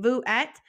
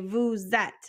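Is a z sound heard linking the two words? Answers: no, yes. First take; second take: no; yes. First: The words are said without a linking z sound. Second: The words are linked with a z sound. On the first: The speaker calls it wrong. "instead of saying" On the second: The speaker calls it right. "it makes that Z sound in there"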